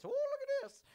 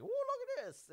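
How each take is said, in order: First: Very high, louder Shaggy impression. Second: Shaggy voice. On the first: Shaggy admiring the stolen coin, very high Shaggy voice. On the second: Retold or imitated. Shaggy the stoner finding a coin, high Shaggy voice. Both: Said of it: "that's my Shaggy voice".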